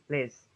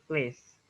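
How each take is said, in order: Both takes have the same delivery.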